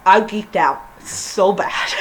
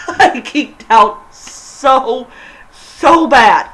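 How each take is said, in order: First: Said in the usual way. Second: Slow, laughing through the words. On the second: Real, not acted. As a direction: giggle it out, can't hold it in. Laughing while gushing.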